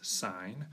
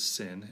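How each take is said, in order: First: It has a long vowel, like 'sign'. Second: It has a short vowel, like 'sin'. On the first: The speaker calls it right. "it's sine" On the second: The speaker calls it wrong. "Don't pronounce that as sin"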